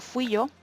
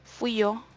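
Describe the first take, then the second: First: The y in yo is soft and relaxed. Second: The same.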